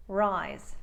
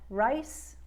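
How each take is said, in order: First: "rise" falling into a vocalized Z; "rise" with voiced Z. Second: "Rice" pitched up and rising into a voiceless S; "Rice" with S ending. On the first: Coach repeating the comparison, "rise" with voiced Z. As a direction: let "rise" drop and buzz the final Z. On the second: Coach repeating the comparison, "Rice" with unvoiced S. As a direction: raise "Rice" and end it on a hiss. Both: Shown as a demonstration. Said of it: "listen to the difference for comparison".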